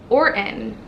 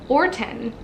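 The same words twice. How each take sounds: No difference in how they are said.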